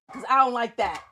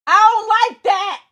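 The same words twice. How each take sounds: First: Said in the usual way. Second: "I don't like that" shouted higher and louder, stress on "I"; louder repeat. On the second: Real, not acted. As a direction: blurt it out as a louder complaint. Repeats complaint, second time shouted.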